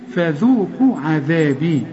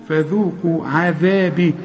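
Both takes have the same delivery.

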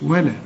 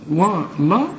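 First: The L sound is thin and light. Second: The L sound is thick and heavy. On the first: The speaker calls it right. "واللام دائما مرققة" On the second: The speaker calls it wrong. "ما تقولش ولقد ولا"

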